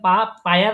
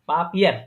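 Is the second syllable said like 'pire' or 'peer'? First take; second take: pire; peer. First: The second syllable sounds like 'pire', with 'ai'. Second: The second syllable sounds like 'peer', with 'ie'. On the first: The speaker calls it wrong. "পা পায়ার না হয়ে" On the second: The speaker calls it right. "পিয়ার হয়েছে"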